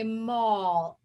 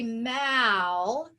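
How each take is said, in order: First: The vowel is an 'aw' sound. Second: The vowel is a short 'a' sound. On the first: The speaker calls it right. "we say mall, aw" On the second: The speaker calls it wrong. "We don't say mal"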